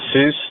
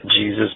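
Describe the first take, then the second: First: The name begins with an h sound. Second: The name begins with a j sound. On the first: This is the caller's real name. The speaker calls it right. "This is Jesus" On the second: This is the mistaken reading of the name. The speaker calls it wrong. "not Jesus"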